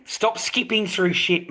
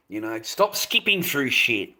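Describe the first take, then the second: First: "Stop skipping through shit" pitched higher and slowed, every word pressed; to viewers who skip ads, slower and higher on "Stop skipping through shit"; slower, higher insistence. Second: Said in the usual way. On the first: Real, not acted. Streamer scolds his viewers, slow and insistent.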